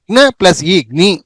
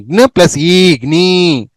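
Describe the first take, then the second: First: గ్ని with a short i; short vowel. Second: గ్ని with a drawn-out ee; long vowel. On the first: Teacher drilling the rare జ్ఞ series, short vowel. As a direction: keep గ్ని brief. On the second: Teacher drilling the rare జ్ఞ series, long vowel. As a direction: stretch the end of గ్ని. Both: Shown as a demonstration. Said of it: "డెబ్బై ఎనిమిదో పేజీలో జ్ఞ".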